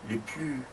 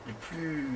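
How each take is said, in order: Both takes have the same delivery.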